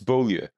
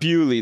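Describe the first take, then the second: First: The name is said with a French pronunciation. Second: The name is said with an anglicized pronunciation. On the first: The speaker calls it right. "it's French" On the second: The speaker calls it wrong. "It's not Bewley though"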